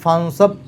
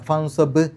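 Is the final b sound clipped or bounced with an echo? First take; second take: clipped; bounced. First: The final b is clipped without an echo. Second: The final b is released with an echo. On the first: The speaker calls it wrong. "അവിടെ ഫൻസബ് എന്ന് പറഞ്ഞാൽ പോരാ" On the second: The speaker calls it right. "ബ് എന്നുള്ള ശബ്ദം പുറത്തേക്ക് കേൾക്കണം"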